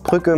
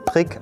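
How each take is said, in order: First: The vowel is a rounded ü sound. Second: The vowel is an unrounded i sound. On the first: "Aus Brücke" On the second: "machen wir Prick"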